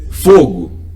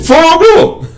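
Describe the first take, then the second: First: The word is said calmly at normal volume. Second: The word is shouted loudly in alarm. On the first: It is just a word in conversation. "é uma coisa" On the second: There is real danger and people get scared. "Todo mundo vai se assustar"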